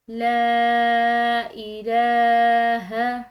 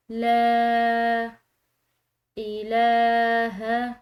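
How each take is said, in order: First: لا الہ with لا stretched very long, loud; long madd. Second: لا then الہ drawn very long, loud; long madd. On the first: Teacher stretching لا in لا الہ, slow loud chant. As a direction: hold the vowel of لا for a long beat. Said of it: "اس لام کو ہم نے لمبا ادا کیا ہے". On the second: Teacher repeating لا الہ stretched, slow loud chant. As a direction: pull الہ out slowly. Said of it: "اس کو لمبا ادا کیا ہے". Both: Shown as a demonstration.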